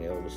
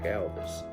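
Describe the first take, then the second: First: The name is said in a plain accent. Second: The name is said in a Southern accent. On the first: This is the name the fans meant. "They were hollering [name], of course" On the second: This is how the fans' shout actually sounded. "in the southern accent, it sounded like"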